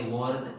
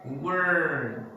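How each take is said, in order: First: "word" short, said like "wawd"; brief R-less "word". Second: "word" drawn out on a strong R; long American R in "word"; stressed R. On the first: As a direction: drop the R in "word". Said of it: "They didn't say word". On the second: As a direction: say "word" like "wurrrd", slowly. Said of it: "they say word". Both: Shown as a demonstration.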